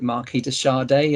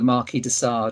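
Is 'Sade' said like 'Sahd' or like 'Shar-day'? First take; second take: Shar-day; Sahd. First: Sade is said like the singer, 'Shar-day'. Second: Sade is said in the usual way, 'Sahd'.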